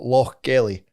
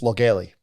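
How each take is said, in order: First: The name is said in full, sounds kept apart. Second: The name is said condensed, sounds run together. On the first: "it's not Lochgelly" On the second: "condense it, manch it all together"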